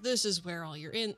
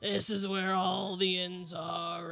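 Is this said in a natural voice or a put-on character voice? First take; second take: natural; put-on. First: It is said in the speaker's natural voice. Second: It is said in a put-on character voice.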